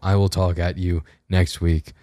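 It is said in the speaker's natural accent. "back to normal"

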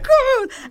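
It is said in an excited, buzzing tone.

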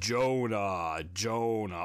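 The voice is deep, slow and booming. God speaks with grave authority. "is it deep and booming like James Earl Jones or Morgan Freeman?"

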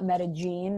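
The name is pronounced the way locals say it. The speaker calls it right. "the locals call it Medellin"

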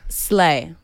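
The word is said confidently and assertively. The speaker sounds comfortable using the word. The speaker calls it right. "just say like, slay. See?"

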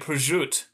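It is clipped, New Jersey Italian style.

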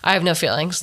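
It sounds proud and boastful. The speaker wants to be envied. "It was, I have no feelings. Like, you wish you could be like me"

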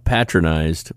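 The word is said with a sarcastic tone. Someone was treated with condescension. "it's the sarcastic thing"

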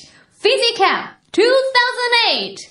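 It is said in a cool, dramatic announcer style.

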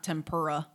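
It is pronounced in an American way. The speaker calls it wrong. "not tempura? Like we say"

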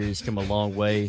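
It is read in a put-on football player voice.

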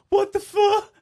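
It is said as a scared, quiet whimper.

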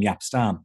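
The name is said the English way.

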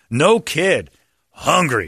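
There is a pause after 'kid'.

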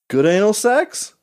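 It ends with a questioning rise.

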